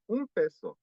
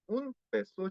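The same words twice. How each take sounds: First: "un peso" run together as "umpeso"; linked, N as M. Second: "un peso" broken after "un", higher; pause between syllables. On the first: Teacher correcting the mistake, "un peso" joined with an M. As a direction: glide from "un" into "peso" without a gap, lips closed on M. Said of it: "Se pronuncia con una, una M". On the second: Teacher showing the Korean mistake, "un" cut off from "peso". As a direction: split "un / peso" with a clear gap, N kept. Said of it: "suele dar pausa entre sílabas". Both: Shown as a demonstration.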